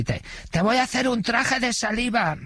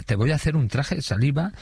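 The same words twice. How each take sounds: First: Very high imitation of a heckling woman inmate; rowdy catcall. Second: Lightly acted catcall, a little higher; repeated catcall. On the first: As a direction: mimic an audience woman's high-pitched catcall. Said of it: "nada más salir a la escena". (piropo descarado imitado, en voz muy aguda) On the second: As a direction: quote a lewd catcall with only mild imitation. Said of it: "Yo no había escuchado eso en mi vida". (piropo repetido, imitado levemente)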